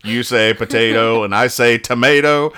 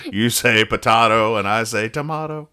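First: "potato" with ay, "tomato" with ay. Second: "potato" with ah, "tomato" with ah; potahto, tomahto. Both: Shown as a demonstration. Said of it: "It's a better version of the song".

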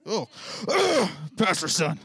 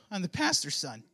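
First: Loud, whiny sneer at pastor's son; scoffing teen whine; bratty teen voice. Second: Lightly voiced teen. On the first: Retold or imitated. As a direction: play the entitled teenager, disgusted. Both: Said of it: "age accuracy voice".

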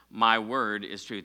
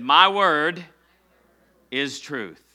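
First: Said in the usual way. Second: "My word" lifted and louder, then a pause before "is truth"; stress on MY WORD. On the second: Shown as a demonstration. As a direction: punch "My word", hold, then drop into "is truth". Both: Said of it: "Everybody say it with me".

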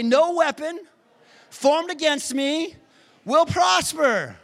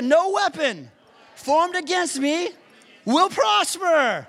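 First: Much higher, louder, slow shouted declaration; call to repeat. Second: High shouted declaration, full conviction; like you mean it. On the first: Preacher leading the congregation in a shouted declaration. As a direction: shout each phrase for them to echo. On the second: Preacher pushing the congregation to mean it, shouting. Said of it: "Now say it like you mean it". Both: Shown as a demonstration.

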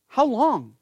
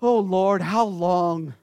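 First: Raised, anguished cry to God; higher heartfelt plea; earnest lament. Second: Hammed-up whining child over chores; mock the sulky sigh of a kid; mock kid whine. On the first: Acted. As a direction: plead it from the soul. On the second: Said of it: "When mom or dad tell you".

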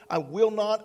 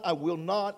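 First: "I will not" punched out louder; emphatic loud. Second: Said in the usual way. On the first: Shown as a demonstration. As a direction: hit "not" hard.

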